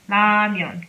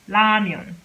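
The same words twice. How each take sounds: No difference in how they are said.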